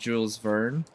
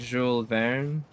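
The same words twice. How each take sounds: First: The name is said with an American English pronunciation. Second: The name is said with a French pronunciation. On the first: "here we call him" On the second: "in French it would be pronounced more like"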